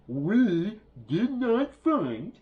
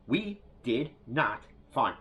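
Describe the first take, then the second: First: The phrase is said slowly and deliberately. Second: The phrase is said at a normal pace.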